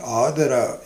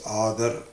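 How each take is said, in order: First: The word ends with a final vowel sound. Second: The word ends with a consonant sound. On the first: This is the Sanskrit form. "instead of saying Adara in Sanskritam" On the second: This is the Hindi form. "in Hindi the last A is elided"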